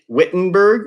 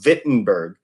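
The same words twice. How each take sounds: First: The name begins with a W sound. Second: The name begins with a V sound. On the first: The speaker calls it wrong. "we don't pronounce it" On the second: The speaker calls it right. "with a V, so Wittenberg is how we pronounce it"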